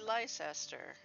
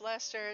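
First: Every written letter is sounded out. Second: Some written letters are dropped in speech. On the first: This follows the spelling. The speaker calls it right. "it should be Leicester" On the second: This is how locals actually say it. The speaker calls it wrong. "should not be pronounced Leicester"

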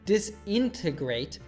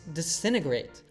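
First: It has four syllables with the first T sounded. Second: It has three syllables with the first T dropped. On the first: The speaker calls it wrong. "it's not disintegrate" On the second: The speaker calls it right. "It reduces from 4 to just 3 syllables, and the first T sound disappears"

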